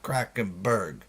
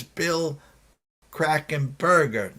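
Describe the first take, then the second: First: "Krakenberg" slower and softer, stopping on "berg"; clipped-off name ending. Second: "Krakenberger" slowly, with the final -er clearly sounded; pronounced R ending. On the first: Host showing the mistaken name, "Krakenberg" ending on "berg". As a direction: say "Krakenberg" without the final -er, lower. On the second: Host correcting himself on a name, "Krakenberger" with its -er pronounced. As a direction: say "Krakenberger" carefully, finishing on a full "er". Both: Shown as a demonstration. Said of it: "not Krakenberg".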